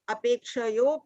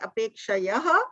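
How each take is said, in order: First: The word ends with an 'o' sound. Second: The word ends with an 'ah' sound. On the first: The words are joined by sandhi. "अपेक्षयो की जगह" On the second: The words are split apart for easier reading. "संधि विच्छेद के साथ पढ़ते हैं तो और आसान हो जाता है"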